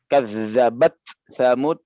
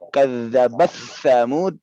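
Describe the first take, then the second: First: The final t is pronounced clearly and separately. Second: The final t is merged into the following sound. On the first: This follows the Hafs reading. "di qiraah Hafs itu menjadi izhar" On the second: This follows another transmitted reading. "Tapi di riwayat lain dia disambung"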